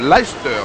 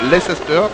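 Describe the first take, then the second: First: The name is pronounced the English way. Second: The name is pronounced the French way. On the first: This is how the city's own English speakers say it. The speaker calls it right. "Il faut bien prononcer le nom de cette équipe" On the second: This is how many French speakers say it. The speaker calls it wrong. "non Leicester, comme disent beaucoup"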